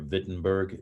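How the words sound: The name is said with a German pronunciation.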